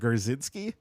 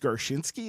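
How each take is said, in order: First: The middle consonant is a 'z' sound. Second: The middle consonant is a 'sh' sound. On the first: The speaker calls it wrong. "it's not Garzinski" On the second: The speaker calls it right. "it's Garshinsky"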